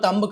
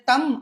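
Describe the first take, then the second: First: The word ends on a b sound. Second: The word ends on an m sound. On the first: The speaker calls it wrong. "తంబ్ కాదు" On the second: The speaker calls it right. "తమ్ అనాలి"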